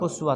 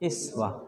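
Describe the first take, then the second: First: The word begins with a 'u' vowel. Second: The word begins with an 'i' vowel. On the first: "हमज़ा मकसूरा पर इमाम आसिम पढ़ेंगे उसवा" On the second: "तो बाकी छः इमाम क्या पढ़ेंगे"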